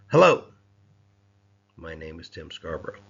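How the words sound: The word hello is stressed and projected. A forceful greeting is being given. "I emphasized that first word and projected that out"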